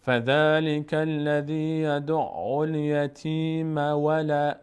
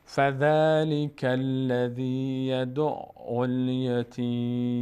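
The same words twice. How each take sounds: First: Slow chanted recitation running الیتیم straight on into ولا; Quranic recitation continuing. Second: Slow chanted recitation ending on a silent م in الیتیم; Quranic recitation stopping. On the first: Teacher recites the verse, linking it to the next word. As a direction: recite slowly without stopping at الیتیم. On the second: Teacher recites the verse to students, pausing at the end. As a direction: recite slowly and stop on الیتیم. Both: Shown as a demonstration.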